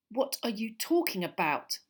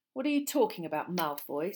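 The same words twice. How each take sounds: First: Angry demand. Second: Rough challenge. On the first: Harry demands Malfoy explain himself, angrily. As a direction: demand an answer with some heat. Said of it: "said Harry angrily". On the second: Ron challenges Malfoy, roughly. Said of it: "said Ron roughly". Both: Acted.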